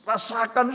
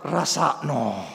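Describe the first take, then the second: First: Said in the usual way. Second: Rasakno said the Javanese way, low, as a smug inner gloat; low inner Javanese Rasakno, serves you right. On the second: Retold or imitated. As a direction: Rasakno with Javanese -no ending, gloating under the breath. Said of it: "hati saya berkata".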